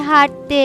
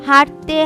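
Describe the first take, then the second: No difference in how they are said.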